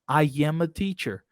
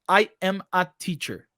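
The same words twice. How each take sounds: First: A y sound links I smoothly into am. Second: There is a short pause between I and am. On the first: The speaker calls it right. "um som extra que a gente vai colocar entre o I e o M, que é o som de Y" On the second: The speaker calls it wrong. "A gente não fala assim, ó"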